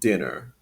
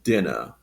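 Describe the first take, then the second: First: A strong R sound is heard at the end. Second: No R sound is heard at the end. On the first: "with that strong R sound at the end" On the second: "in a non-rhotic accent"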